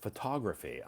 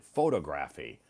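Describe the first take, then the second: First: Photography as fuh-TOG-ruh-fee, stress on TOG; photography stressed on the second syllable; teacher's model photography; correct photography. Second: Photography as FOH-tuh-gra-fee, stress on FOH; photography with a long first o, stressed first; mispronounced photography. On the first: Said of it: "Todd pronounced it". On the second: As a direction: learner hearing a wrong photography. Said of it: "I pronounced it". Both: Shown as a demonstration.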